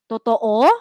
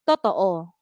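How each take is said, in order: First: The pitch rises on the final vowel. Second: The pitch stays low on the final vowel. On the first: "tumaas yung tono niya" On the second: "Mababa yung O"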